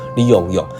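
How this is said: The repeated syllable starts with a y sound. This is how the accented speaker said it. "因为他的口音问题，所以他讲话你用用"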